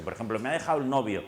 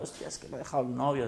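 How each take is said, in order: First: Said in the usual way. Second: Quick, whiny mock lament of a dumped girl; half-mocking tearful complaint; imitating a weepy girl. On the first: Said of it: "y viene alguien llorando". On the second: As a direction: play the heartbroken patient, lightly hammed. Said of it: "una chica llorando".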